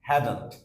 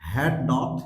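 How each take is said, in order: First: The words are squeezed into one contracted word. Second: Both words are said in full, separately.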